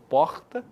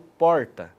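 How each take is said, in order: First: The R is a harsh sound from the throat. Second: The R is the caipira, country-style R. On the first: It is the R linked to Rio de Janeiro. "aquele R gutural, em que o som ele vem da garganta" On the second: It is the R of São Carlos and Araras. "é o R caipira"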